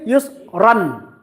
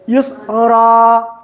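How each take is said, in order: First: The word ends with an n sound. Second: The word ends on a vowel, without n. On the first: "That's supposed to be use run" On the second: "So yusra"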